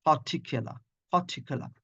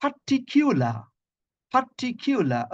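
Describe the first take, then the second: First: "পার্টিকুলার" quick, with a reduced middle vowel; corrected pronunciation. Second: "পার্টিকুলার" drawn out with a kyoo; high-pitched par-ti-KYOO-lar for "পার্টিকুলার"; common mispronunciation. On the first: Teacher models the corrected word for students, correct pronunciation. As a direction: say "পার্টিকুলার" as puh-TIK-uh-luh. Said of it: "it's a particular". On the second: Teacher quotes how many of us say it, wrong pronunciation. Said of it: "অনেকে আমরা বলি যে". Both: Shown as a demonstration.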